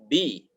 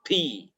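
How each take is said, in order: First: The b is released without a breathy puff. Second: The b is released with a breathy puff. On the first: The speaker calls it right. "Seharusnya bi" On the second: The speaker calls it wrong. "bukan bi"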